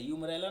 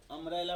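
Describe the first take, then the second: First: यूम्ब्रेला with a "yoo" glide up front; wrong pronunciation. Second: अम्ब्रेला opening on a plain "um" vowel; correct pronunciation. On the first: Teacher warning students off यूम्ब्रेला, wrong pronunciation. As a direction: open यूम्ब्रेला on "yum", as the misreading. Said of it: "यूम्ब्रेला ना पढ़ता है". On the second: Teacher showing students how to read अम्ब्रेला, correct pronunciation. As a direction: say अम्ब्रेला with no y-sound at the start. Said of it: "अम्ब्रेला पढ़ता है". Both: Shown as a demonstration.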